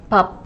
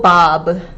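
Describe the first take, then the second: First: The final consonant is held and not released. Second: The final consonant is released with a burst. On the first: The speaker calls it right. "the last consonant, we do not release it" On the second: The speaker calls it wrong. "We don't go bob"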